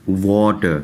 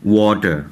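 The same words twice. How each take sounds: First: Patient second take of واٹر; English word demo. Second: واٹر said slowly as English "water", non-rhotic end; teacher's careful واٹر; English word demo. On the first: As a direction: echo واٹر for students to copy. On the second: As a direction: model the word واٹر clearly for learners. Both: Shown as a demonstration. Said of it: "الفاظ کو دیکھ لیجئے".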